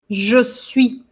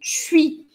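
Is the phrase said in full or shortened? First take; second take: full; shortened. First: It is said as two full separate syllables. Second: It is squeezed into one quick syllable. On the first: It is the neutral, standard form. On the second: It is casual, everyday speech.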